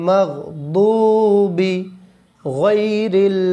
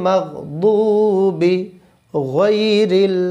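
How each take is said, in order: Both takes have the same delivery.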